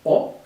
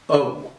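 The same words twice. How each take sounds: First: The O vowel is short and quick. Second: The O vowel is long and drawn out. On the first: The speaker calls it wrong. "a short, fast O, like an O" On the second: The speaker calls it right. "but rather an O"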